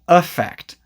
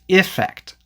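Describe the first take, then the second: First: The first vowel is a weak schwa sound. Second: The first vowel is a short i, as in 'sit'. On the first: "we often pronounce it with the schwa sound" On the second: "the E is usually pronounced as the short I sound"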